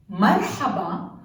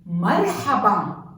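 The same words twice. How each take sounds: First: Marhaba repeated with a throaty ḥ; Arabic pronunciation. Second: Marhaba with a throaty ḥ; Arabic pronunciation. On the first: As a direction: marhaba said again, clear ḥ. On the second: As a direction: marhaba said clearly, breathy ḥ. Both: Shown as a demonstration. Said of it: "Another example is".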